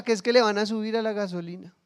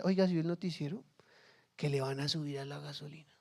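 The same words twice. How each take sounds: First: Said in the usual way. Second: Softer, hushed, passing on bad news; worried neighbour sharing gossip quietly. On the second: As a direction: lean in and murmur the rumour.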